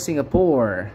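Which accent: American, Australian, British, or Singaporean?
American. It is said in an American English accent. "Kalau orang Amerika bilang"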